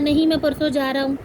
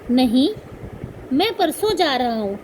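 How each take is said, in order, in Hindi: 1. इसमें पहले शब्द के बाद कोई विराम नहीं है, बात आगे चलती रहती है। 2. पहले शब्द के बाद थोड़ा सा विराम है। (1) "अगर कोमा ना लगा होता तो वो सेंटेंस बनता" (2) "अगर हम थोड़ा यहाँ विराम देंगे, अल्प विराम देंगे"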